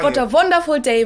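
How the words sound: The w sounds are pronounced like v sounds. "if you want to do a strong German accent"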